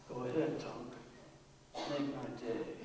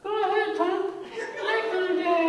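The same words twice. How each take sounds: First: It is said in a low, guttural voice. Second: It is said in a high, tight voice.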